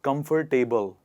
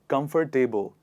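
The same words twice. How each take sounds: First: The ending is said like the word table. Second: The ending is said like the word table.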